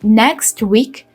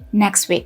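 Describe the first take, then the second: First: The final t of 'next' is pronounced. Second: The final t of 'next' is dropped. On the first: "Instead of saying" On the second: "you just drop sound at the end"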